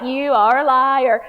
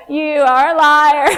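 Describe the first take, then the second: First: Slow, louder, laughing "liar" call-out; playful accusing "You are a liar"; mock accusation. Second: Slow, much louder and higher, laughing; laughing, loud mock accusation; mock accusation, bigger. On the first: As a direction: call their bluff, half laughing. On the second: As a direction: really lean into calling them a liar. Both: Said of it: "I'll be like".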